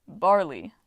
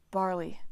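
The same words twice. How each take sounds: First: Twinkling reveal. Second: Flat disbelief. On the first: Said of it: "his eyes twinkled". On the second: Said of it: "Frank stared at him". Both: A narrator's reading.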